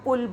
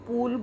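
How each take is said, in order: First: The u vowel is short and said quickly. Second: The u vowel is long and drawn out. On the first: The speaker calls it right. "पुल शब्द है उसमें ऊ पर कम जोर दिया गया है" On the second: The speaker calls it wrong. "जो पूल है वो मात्रा बड़े ऊ की लगी हुई है, उसमें वो गलत है"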